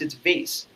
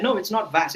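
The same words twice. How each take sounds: First: "vase" said as vayce, rhyming with face; long ay in "vase", ending in s; pedantic. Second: Pedantic correction, "vase" said as vahs; "vase" with an open a, higher and corrective. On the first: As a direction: correct them with "vase" as vayce. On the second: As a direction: say "vase" as vahs, rejecting it primly. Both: Retold or imitated. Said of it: "having this pedantic attitude".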